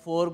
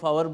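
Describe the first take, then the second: First: The word is said plainly, as one syllable. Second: The word is stretched with an extra syllable.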